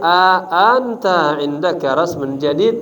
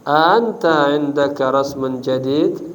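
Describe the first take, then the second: First: The opening vowel is drawn out long. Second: The opening vowel is left out entirely. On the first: "A ini dipakai dipanjang" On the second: "A-nya pertama dibuang"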